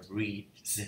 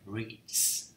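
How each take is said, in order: First: "reads" ending in a buzzed dz; voiced z ending. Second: "reads" ending in a voiceless ts; wrong s ending. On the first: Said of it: "Không phải. Này là reads". (đọc "reads" với âm cuối z hữu thanh) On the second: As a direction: say "reads" with a hissed s at the end. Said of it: "Không phải". (đọc "reads" với âm cuối s vô thanh) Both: Shown as a demonstration.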